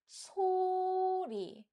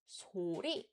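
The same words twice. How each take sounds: First: The word starts on a high pitch. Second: The word starts on a low pitch. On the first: The speaker calls it right. "we read it as 소리" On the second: The speaker calls it wrong. "we don't read it as 소리"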